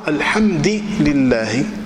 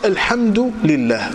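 First: The d takes i and the l takes i. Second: The d takes u and the l takes i. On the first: "أتبع الدال حركة اللام" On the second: "الدال هنا علامة الرفع"

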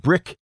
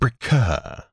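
First: The final k is short with no breath after it. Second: The final k is followed by a drawn-out breath. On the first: "The kappa was completely unaspirated. It was a very short, hard sound" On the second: "chi was aspirated. That means it had a drawn-out exhalation. We're exaggerating a bit"

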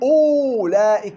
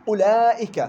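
First: A 'w' sound follows the opening vowel. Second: No 'w' sound follows the opening vowel. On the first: The speaker calls it wrong. "ما بقول أولئك" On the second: The speaker calls it right. "لا أولئك همز مضموم بعدين علام مفتوحة"

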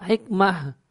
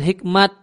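First: The word ends with an h sound. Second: The word ends with a t sound. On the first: This is the original Arabic way of saying the name. The speaker calls it right. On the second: This is the Turkish way of saying the name. The speaker calls it wrong. "hikmat itu bahasanya orang Turki. Itu gaya pengucapannya orang Turki"

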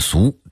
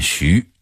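First: The word is pronounced su, as in Beijing speech. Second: The word is pronounced xu, as in Dingxing speech.

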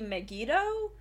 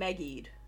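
First: The name is said with three syllables. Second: The name is said with two syllables. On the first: The speaker calls it right. "it is actually supposed to be Megiddo" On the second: The speaker calls it wrong. "I know we've been saying Megied over the course of our coverage"

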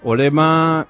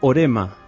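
First: The middle consonant is an L sound. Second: The middle consonant is an R sound.

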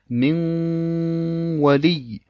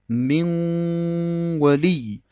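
Both takes have the same delivery.

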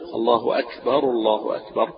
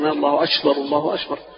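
First: The k sound is crisp without extra breath. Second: The k sound is heavily breathy and airy. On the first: The speaker calls it right. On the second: The speaker calls it wrong.

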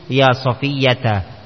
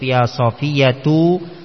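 First: Safiyya ends with a short a vowel. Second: Safiyya ends with a short u vowel. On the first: The name is read in the accusative case. "boleh mansub" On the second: The name is read in the nominative case. "Boleh marfu"

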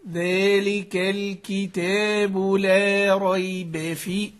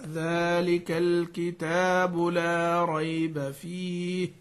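First: The a-vowels are tilted toward an i sound. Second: The a-vowels are kept clearly open. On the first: The speaker calls it wrong. "هذه كلها ميل الى غير الاداء الصحيح في الترقيق" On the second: The speaker calls it right. "فلما تنطق الحرف مرققا"

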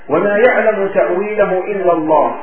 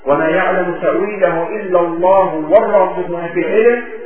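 First: The recitation stops after the word Allah. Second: The recitation continues past Allah without stopping. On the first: Only God knows its interpretation. "هنا الوقف" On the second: Those firm in knowledge also know its interpretation. "ثم يقفون ويستأنفون"

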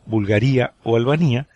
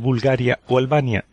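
First: The names are pronounced the Italian way. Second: The names are pronounced the Spanish way. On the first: The speaker calls it wrong. "digo Bulgaría o Albania, como en italiano" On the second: The speaker calls it right. "en vez de decir Bulgaria o Albania"

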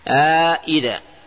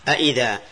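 First: Both glottal stops are said fully, with a long vowel between. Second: Both glottal stops are said fully, with no vowel between. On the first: "ثالثا إدخال الألف في التحقيق فتقول إيش؟" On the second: "أولا التحقيق، تحقيق الهمزتين، تقول أئذا"

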